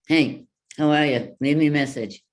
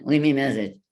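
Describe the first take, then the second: First: Bright, louder voicemail greeting; put-on answering machine voice; phone greeting demo. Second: Louder voicemail line replayed; the greeting as it sounds on playback; mock voicemail greeting; heard back on playback. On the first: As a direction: sing out a cheery voicemail message. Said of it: "I could leave that on my phone". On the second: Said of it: "when I would hear that back". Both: Shown as a demonstration.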